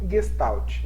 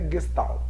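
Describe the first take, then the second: First: The final T carries an added Brazilian vowel sound. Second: The final T is plain with no added vowel. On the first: "a gente pode dar uma brasileirada e falar Gestalt" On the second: "mas é Gestalt. Né? Não tem o, o som do T"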